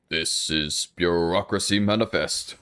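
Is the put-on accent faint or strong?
strong. It is said with a stronger put-on accent. The speaker calls it right.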